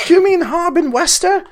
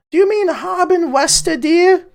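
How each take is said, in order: First: Put-on high old lady voice repeating the question; old woman. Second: Put-on high old lady voice calling from the back; old woman. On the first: Innkeeper's wife repeats from the back, high old-woman voice. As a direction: pitch way up, sweet elderly wife asking again. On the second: Innkeeper's wife calls from the back room, high old-woman voice. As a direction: pitch way up like a sweet elderly wife. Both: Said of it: "I don't know why she's so old".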